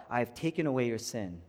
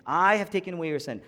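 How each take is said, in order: First: Said in the usual way. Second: Emphatic "I" at the front; stress on I. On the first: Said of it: "I'm gonna change the emphasis". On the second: Shown as a demonstration. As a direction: hit the word "I", then run quickly through the rest. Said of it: "change the emphasis a little bit".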